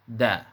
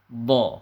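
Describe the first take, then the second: First: The syllable is said light and thin. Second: The syllable is said heavy and thick. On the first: The speaker calls it wrong. "tidak boleh dibaca da" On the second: The speaker calls it right. "harus dibaca tebal"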